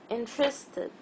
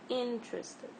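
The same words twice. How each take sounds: First: The stress is on the second syllable. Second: The stress is on the first syllable. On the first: The speaker calls it wrong. "any other syllable like trist or id ... this is not the right pronunciation" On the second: The speaker calls it right. "The correct pronunciation is interested"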